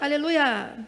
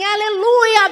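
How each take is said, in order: First: It is said flatly, without joy. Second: It is said joyfully, with excitement. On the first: The praise is only inward, not celebrated. The speaker calls it wrong. "Você não está alegre?" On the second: The praise is an open celebration. The speaker calls it right. "halal é uma festa"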